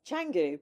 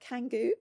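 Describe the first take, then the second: First: The word begins with a ch sound. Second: The word begins with a hard k sound. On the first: It follows the local reading of the letter. The speaker calls it right. "so C's here are chas, cha" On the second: It is read as an English speaker would read it. The speaker calls it wrong. "it reads Canggu if you're um uh, British"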